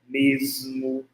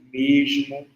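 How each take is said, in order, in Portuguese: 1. O s é um som sibilante. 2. O s é um som chiado. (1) "da variante alveolar" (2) "variante palatalizada, que é o chiado"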